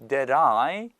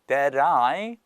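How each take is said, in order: First: The t is a quick flap, like an r. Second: The t is a quick flap, like an r.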